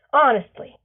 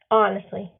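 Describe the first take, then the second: First: Sung. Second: Said in the usual way. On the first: A narrator's reading. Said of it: "he sings". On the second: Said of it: "Leof replies".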